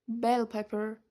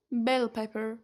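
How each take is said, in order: Both takes have the same delivery.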